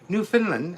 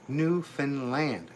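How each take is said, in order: First: The ending is reduced, as in Finland. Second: The ending is a full, clear 'land'. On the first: The speaker calls it wrong. "most people are used to pronouncing like Finland. So they say" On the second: The speaker calls it right.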